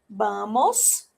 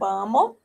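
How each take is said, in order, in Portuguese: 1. O som do S final é pronunciado. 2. O som do S final é omitido. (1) "A gente diz vamos" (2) "e não vamos"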